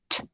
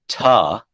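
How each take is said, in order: First: The consonant is clipped with no vowel after it. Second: The consonant is followed by a short uh vowel. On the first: The speaker calls it right. "it is t" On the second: The speaker calls it wrong. "It is not ta, ... that's two sounds. That's t and uh"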